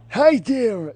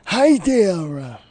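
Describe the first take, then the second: First: Put-on higher take of the old man greeting; Mort from Family Guy voice, higher. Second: Lightly voiced nasal old man; a hint of a fussy old man greeting; Mort from Family Guy voice. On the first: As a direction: pitch the old man up a notch. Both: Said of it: "You sound like Mort from Family Guy".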